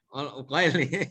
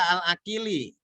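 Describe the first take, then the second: First: The name's first vowel is pronounced 'u'. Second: The name's first vowel is pronounced 'a'. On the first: This is how people over there say it. The speaker calls it right. "Padahal Uqaili" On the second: This is how many local people say it. The speaker calls it wrong. "banyak yang baca Al-Akili"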